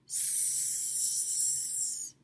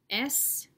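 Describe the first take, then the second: First: It is said as a bare hissing 'sss' sound. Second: It is said as the full letter name 'ess'. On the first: This is the sound the letter makes. "The sound for S is S" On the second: This is the name of the letter. "My letter name is S"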